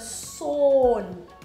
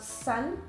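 First: The vowel is a long O sound. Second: The vowel is short, like English 'sun'. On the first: The speaker calls it right. "O has like a long sound" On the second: The speaker calls it wrong. "it's not sun"

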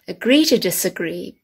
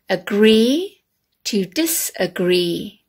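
First: The phrase is said naturally, without exaggeration. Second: Each sound is pronounced in an exaggerated way. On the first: "how we normally say them" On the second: "this exaggerated way"

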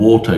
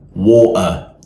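First: The T is a clear, released T sound. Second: The T is replaced by a glottal catch in the throat. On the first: "instead of saying water" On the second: "you say water"

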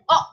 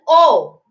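First: The vowel sound is short and quick. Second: The vowel sound is long and drawn out. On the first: "short vowel sound is O" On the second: "Long vowel sound is O"

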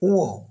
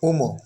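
First: It has no m sound in the middle. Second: It has an m sound in the middle. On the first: The speaker calls it right. "সঠিক উচ্চারণটি হচ্ছে উও" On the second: The speaker calls it wrong. "যা আমি ভুল বলছি"

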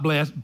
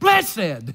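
First: The word is said in the everyday modern style. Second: The word is said in the older traditional style. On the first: The speaker calls it wrong. "Not blessed" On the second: The speaker calls it right. "I like the way the old people used to say, blessed"

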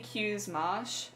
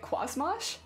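First: The first word sounds like the letter Q. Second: The first word sounds like 'kwah'. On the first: The speaker calls it right. "I'd pronounce the same as letter Q" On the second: The speaker calls it wrong. "a part of me that would call it Qua"

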